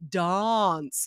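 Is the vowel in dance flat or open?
open. The vowel is an open, broad a. "the British accent where it's like, oh, it's the open dance"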